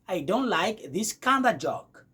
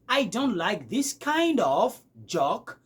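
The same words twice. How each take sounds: First: 'Kind of' is blended into 'kinda'. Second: 'Kind of' is said as two full words. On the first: "vous allez écouter du genre" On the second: "Au lieu de dire"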